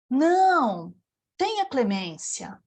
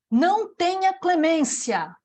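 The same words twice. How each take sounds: First: There is a pause right after 'não'. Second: It runs on with no pause after 'não'. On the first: Show mercy. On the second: Show no mercy.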